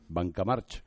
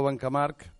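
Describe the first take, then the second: First: The name ends with a ch sound. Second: The name ends with a k sound. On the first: The speaker uses only Castilian Spanish. "los que no lo hablan ... le llaman Banca March" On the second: The speaker is a Catalan speaker. "los que hablamos catalán a la CH final le ponemos el sonido de la C"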